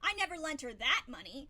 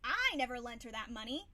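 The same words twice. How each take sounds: First: The stress falls on the word that. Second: The stress falls on the word I. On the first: Different money was lent. "meaning I lent her money, but not the money that you're talking about" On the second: Someone else lent the money. "Somebody else may have, but not me"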